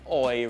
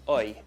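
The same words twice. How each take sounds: First: The vowel is a full, strong oi sound. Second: The vowel is a slightly weaker oi sound. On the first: The speaker calls it wrong. "It's not quite oi really" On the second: The speaker calls it right. "it's slightly less than that, it's oi"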